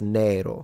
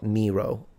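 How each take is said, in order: First: The first vowel is a long, closed e. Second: The first vowel has an English-style quality. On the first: The speaker calls it right. "with a long vowel" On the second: The speaker calls it wrong. "but not Nero. Unless you say it in English"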